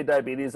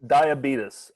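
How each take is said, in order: First: Diabetes said "die-a-BEE-teez"; rejected pronunciation. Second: Diabetes said "die-a-BEE-tus"; insisted pronunciation. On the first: Co-host refusing this form, diabetes as "die-a-BEE-teez". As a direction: end diabetes on a long "teez". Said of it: "If you say diabetes". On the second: Co-host backing the rule, Diabetes as "die-a-BEE-tus". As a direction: end Diabetes on a short "tus". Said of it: "I will not respond the other way". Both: Shown as a demonstration.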